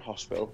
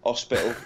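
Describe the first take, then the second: First: The word starts with a clear h sound. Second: The word starts without an h sound.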